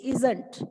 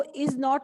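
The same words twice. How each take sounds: First: "isn't" joined into one word; contracted pronunciation. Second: Said in the usual way. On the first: Shown as a demonstration. Teacher modelling the short form, "isn't" as one word. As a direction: say ISN'T with a reduced, falling -nt ending. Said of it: "इसको ऐसे बोलेंगे". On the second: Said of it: "इसको is not नहीं बोलते".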